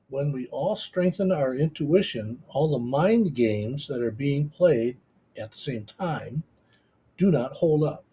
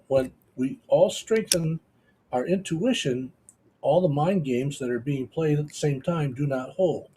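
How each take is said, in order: First: It is read more slowly. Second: It is read at a normal pace.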